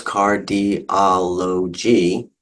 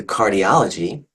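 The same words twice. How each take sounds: First: "cardiology" very slowly as car, di, o, lo, gy; broken into syllables. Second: Said in the usual way. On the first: Shown as a demonstration. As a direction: separate all five syllables of "cardiology". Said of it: "you break that into syllables". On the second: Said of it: "change that a little bit to cardiology".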